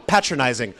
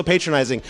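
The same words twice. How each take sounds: First: "patronizing" with a short a, as in pat; British pronunciation. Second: Said in the usual way. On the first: Acted. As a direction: correct them with a British "patronizing". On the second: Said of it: "The word is actually patronizing".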